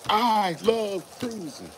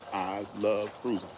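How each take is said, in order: First: It is said in a loud voice. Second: It is said at a normal volume.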